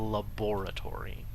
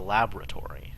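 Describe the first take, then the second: First: The word is said in an old-fashioned English way. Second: The word is said in an ordinary, everyday way. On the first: "You have to pronounce it laboratory because this is Victorian England" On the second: "It's not just a laboratory"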